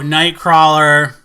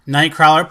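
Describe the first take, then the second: First: Slow, stretched title reveal; stretched-out, punchy reveal; drawn-out announcement. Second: Said in the usual way. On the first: Real, not acted. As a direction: announce it loud, drawing out the vowels. Announcing the next movie.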